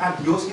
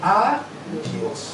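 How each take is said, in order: First: The word is said at normal speed. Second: The word is said slowly, split apart. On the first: It means goodbye. "kalau dikatakan adios itu saya memang sampai jumpa" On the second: It means to God. "kalau dibaca secara pelan, itu mempunyai arti yang berbeda"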